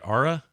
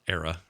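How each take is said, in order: First: The name begins with an open 'ah' vowel. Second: The name begins with an 'air' vowel. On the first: "Am I saying it right? Ara?" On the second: "It's not Era, right?"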